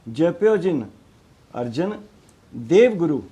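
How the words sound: Dev is joined to guru, after Arjan. Dev belongs with guru, forming Gurdev. The speaker calls it right. "देव जिहड़ा गुरु का हिस्सा है, गुरदेव है"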